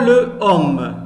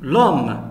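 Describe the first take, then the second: First: The article's vowel is kept before the noun. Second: The article's vowel is dropped before the noun. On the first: The speaker calls it wrong. "on ne dit pas le homme" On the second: The speaker calls it right. "on efface la voyelle E, on met l'apostrophe, on dit l'homme"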